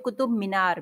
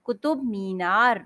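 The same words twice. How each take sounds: First: Qutub मीनार with a quick short मि; common mispronunciation. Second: Qutub मीनार slowly, with long मी. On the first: Teacher quoting the fashionable mistake, short मि in Qutub मीनार. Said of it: "आजकल fashion है". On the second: Teacher repeating the correct name, long मी in Qutub मीनार. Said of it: "मीनार नहीं". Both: Shown as a demonstration.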